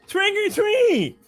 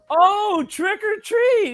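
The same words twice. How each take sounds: First: Very high, drawn-out cleft-palate imitation; hare-lipped little boy. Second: Very high, stretched-out mock delight; delighted old lady. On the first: Little boy at the old lady's door, hare-lip voice. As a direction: squeal it slowly as a hare-lipped kid. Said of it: "I'm gonna tell the joke in hair lip". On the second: Old lady finally understands the boy, delighted.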